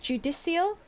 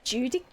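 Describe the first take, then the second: First: The name ends with a 'shul' sound. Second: The name ends with a 'kal' sound. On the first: The speaker calls it wrong. "I think I'm saying that wrong" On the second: The speaker calls it right. "or Judical?"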